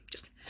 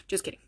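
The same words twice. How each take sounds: First: Almost silent fading echo; near whisper. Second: Dropped, softer aside; quiet aside. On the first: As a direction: let it vanish to a breath. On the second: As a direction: tack it on under your breath. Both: Real, not acted. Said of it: "repeated just kidding".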